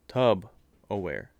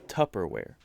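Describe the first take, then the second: First: The first syllable is said slowly as 'tub'. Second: The first syllable is said as 'tup'. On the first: The speaker calls it wrong. "Say it slower" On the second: The speaker calls it right. "there's no tub in it. It's Tupperware"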